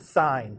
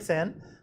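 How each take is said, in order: First: The vowel is long, as in 'fine'. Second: The vowel is short, as in 'fin'. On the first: The speaker calls it right. "You pronounce it sine" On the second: The speaker calls it wrong. "You don't you don't say it sin"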